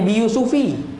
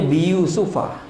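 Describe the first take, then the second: First: The name ends with an 'i' vowel. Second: The name ends with an 'a' vowel. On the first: The speaker calls it wrong. "Dia tak baca bi Yusufi" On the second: The speaker calls it right. "dia baca bi Yusufa"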